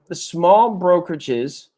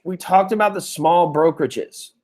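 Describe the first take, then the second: First: Slow, with "small" leaned on hard; stress on small, slowed. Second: Said in the usual way. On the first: Shown as a demonstration. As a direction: repeat it slowly, pressing "small".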